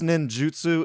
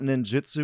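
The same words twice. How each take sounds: First: The last part is pronounced 'jutsu'. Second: The last part is pronounced 'jitsu'. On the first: The speaker calls it right. "it is J U" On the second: The speaker calls it wrong. "It's not ninjutsu. ... saying jitsu"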